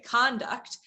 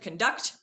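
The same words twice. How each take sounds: First: The stress is on the first syllable. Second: The stress is on the second syllable.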